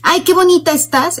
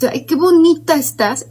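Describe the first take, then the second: First: The compliment sounds spontaneous and sincere. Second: The compliment sounds forced and insincere.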